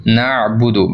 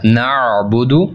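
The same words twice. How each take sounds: First: Said in the usual way. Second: नअबुदु very slowly with the ain pressed from the middle throat; slow stressed नअबुदु, ain from mid-throat; throaty ain. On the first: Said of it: "नअबुदु पढ़ते हैं हम". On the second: Shown as a demonstration. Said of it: "middle throat से आपने पढ़ना है और ज़रा stress के साथ".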